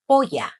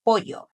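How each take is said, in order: First: Polla ending in an ah sound; final a. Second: Pollo ending in an oh sound; final o. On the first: Teacher quoting the mistaken order, polla ending in a. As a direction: say polla as POY-ah, double l as y. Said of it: "with the A at the end". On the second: Teacher giving the correct order, pollo ending in o. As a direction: say pollo as POY-oh, double l as y. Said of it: "Pollo with the O at the end". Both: Shown as a demonstration.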